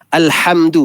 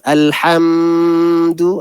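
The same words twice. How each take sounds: First: The m is short with no held nasal hum. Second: The m is held with a nasal hum. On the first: The speaker calls it right. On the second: The speaker calls it wrong.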